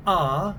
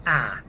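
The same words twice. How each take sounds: First: Rounded, open back "ah". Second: Flat front "ah", as in cat. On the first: Accent coach showing the first English A, rounded "ah". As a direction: say "ah" long and rounded, far back. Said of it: "One is more of a". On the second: Accent coach showing the second English A, flat "ah". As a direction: say "ah" flat and forward, like the vowel in bat. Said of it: "one is more of a ah". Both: Shown as a demonstration.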